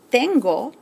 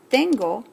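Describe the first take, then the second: No difference in how they are said.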